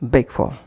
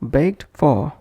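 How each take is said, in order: First: The t sound at the end of baked is dropped. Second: The t sound at the end of baked is heard.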